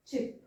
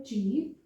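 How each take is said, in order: First: चिप with a short i; short vowel. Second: चीप with a long ee; long vowel. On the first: Teacher contrasting vowels for learners, short i in चिप. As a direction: keep the i in चिप very brief. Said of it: "ये light". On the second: Teacher introducing an example to learners, long ee in चीप. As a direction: hold the ee in चीप. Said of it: "चीप long sound vowel है". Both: Shown as a demonstration.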